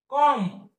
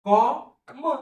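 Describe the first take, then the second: First: Said in the usual way. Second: "कॉ, म" as two separate sounds; phonics-style कॉ... म; sounded out. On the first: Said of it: "संपला शब्द". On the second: Shown as a demonstration. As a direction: say कॉ, pause, then म. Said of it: "त्याला अ जोडून घेतला".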